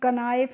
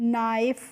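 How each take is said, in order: First: The word begins with a sounded k. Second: The word begins directly with an n. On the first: The speaker calls it wrong. "इसको हम कनाइफ नहीं पढ़ते हैं" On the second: The speaker calls it right. "नाइफ पढ़ेंगे ना"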